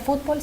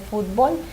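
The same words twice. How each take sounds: First: The stress is on the first syllable. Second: The stress is on the last syllable. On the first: "no se pronuncia fútbol" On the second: "fútbol es palabra aguda"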